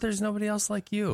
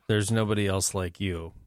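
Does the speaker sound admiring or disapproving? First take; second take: admiring; disapproving. First: The tone is warm and admiring. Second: The tone is flat and disapproving. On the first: Being unique is a compliment. "That's a totally different context" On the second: Being unlike everyone else is a flaw. "that's not a good thing"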